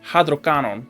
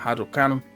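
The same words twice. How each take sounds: First: It is said in a mock Italian accent. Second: It is said in the speaker's ordinary accent.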